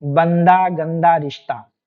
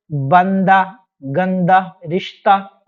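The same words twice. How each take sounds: First: बंदा, गंदा, रिश्ता ending in a long open aa; no h, long aa closing बंदा, गंदा, रिश्ता; h as alif. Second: बंदा, गंदा, रिश्ता with a short ending, as spelt with final h; short final vowel on बंदा, गंदा, रिश्ता; as written. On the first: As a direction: read बंदा, गंदा, रिश्ता as "bandaa, gandaa, rishtaa". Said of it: "ये क्या पढ़ा जाता है". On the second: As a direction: read बंदा, गंदा, रिश्ता by their spelling, ending "-dah, -tah". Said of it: "वगैरह लिखा है". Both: Shown as a demonstration.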